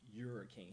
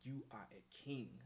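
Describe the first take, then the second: First: The words 'you are' are contracted into one syllable. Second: The words 'you are' are said fully and separately. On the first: "he didn't say, you're a king" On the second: "He said, you are a king. Like, he pronounced that shit"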